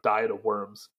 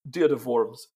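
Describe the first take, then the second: First: Diet sounds like the everyday English word diet. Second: Diet sounds like deet, with one long vowel. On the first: The speaker calls it wrong. "Diet of Worms is no good" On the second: The speaker calls it right. "but, you know, Diet of Worms"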